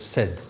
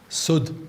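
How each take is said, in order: First: The vowel is an 'a' sound. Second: The vowel is a 'u' sound. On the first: "could be said as said" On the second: "sud as a barrier"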